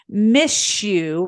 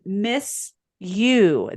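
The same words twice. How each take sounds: First: The s and y blend into an sh sound. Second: The s and y sounds stay separate. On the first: "we say things like miss you" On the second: "rather than miss you"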